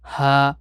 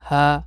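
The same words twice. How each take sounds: First: The h is full, coming from the throat. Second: The h is light, not full from the throat. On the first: The speaker calls it right. "একটু ভরাট ভাবে" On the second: The speaker calls it wrong. "এরকম যেন না হয়"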